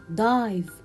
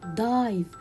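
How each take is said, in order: First: The vowel is a long 'eye' sound. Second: The vowel is a long 'eye' sound.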